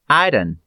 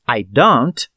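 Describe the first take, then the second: First: The final T sound is dropped. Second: The final T sound is pronounced. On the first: "falamos I done" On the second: "Em vez de falarmos I don't"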